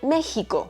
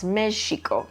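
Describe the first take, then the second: First: The middle consonant is the Spanish 'x' sound. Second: The middle consonant is the original 'j' sound. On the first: This is the form adapted for Spanish speakers. "to the Spanish X, making it Mexico" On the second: This is the original indigenous pronunciation. "the way that they pronounced this as Mexico, so they changed that original j sound"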